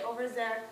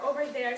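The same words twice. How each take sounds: First: 'There' begins with a z sound. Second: 'There' begins with a th sound. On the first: "she might say over there" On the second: "for over there"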